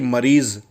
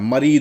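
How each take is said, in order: First: The word ends with a z sound. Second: The word ends with a d sound. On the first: "जेड निकालते हैं" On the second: "दा हो जाता है, मरीद हो जाता है"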